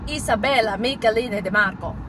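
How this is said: It is said in an exaggerated Italian accent. The speaker calls it right. "with a really bad Italian accent"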